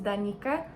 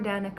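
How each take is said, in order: First: The name is said the Slavic way. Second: The name is said the American way.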